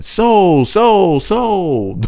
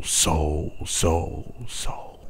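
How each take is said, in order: First: Much higher, louder echo calling out; booming echo. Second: Fading echo. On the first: Narrator redoing the echo louder each time, booming. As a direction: boom the word back like a cave throwing it. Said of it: "each repetition louder than the first". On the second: Narrator demonstrating the cave echo, fading to a whisper. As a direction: echo dying softer each time, ending whispered. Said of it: "I had echoing lower". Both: Shown as a demonstration.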